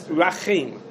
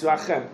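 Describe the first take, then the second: First: Rachem with a long "eim" last syllable; long-vowel reading. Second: Rachem with a short open "em" ending; short-vowel reading. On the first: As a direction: stretch Rachem into ra-CHEIM. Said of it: "If you're saying it without no". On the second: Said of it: "We say the word with no". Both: Shown as a demonstration.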